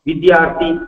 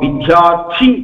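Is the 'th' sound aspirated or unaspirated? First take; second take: unaspirated; aspirated. First: The 'th' sound is light and unaspirated. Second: The 'th' sound is strongly aspirated. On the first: One for whom learning is a torment. The speaker calls it wrong. "அப்படி சொல்லக்கூடாது" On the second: One who longs for learning. The speaker calls it right. "அப்படி சொல்லணும்"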